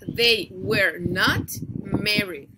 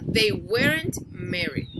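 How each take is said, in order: First: Were and not are said as two full words. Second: Were and not merge into one short word.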